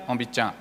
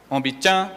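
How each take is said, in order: First: "ombichan" dropped low and soft with a falling tone. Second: "Ombichan" with the second syllable high and rising. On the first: Teacher showing the congregation the wrong low tone on "ombichan". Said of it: "Agora é tom baixo". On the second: Teacher showing the church the correct high tone on "Ombichan". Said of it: "O tom na segunda sílaba". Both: Shown as a demonstration.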